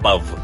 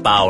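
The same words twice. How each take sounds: First: The word ends in a v sound. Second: The word ends in an open vowel sound. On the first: The speaker calls it wrong. "not Pow" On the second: The speaker calls it right. "Because it's Pow"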